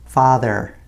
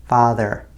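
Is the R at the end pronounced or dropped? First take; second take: pronounced; pronounced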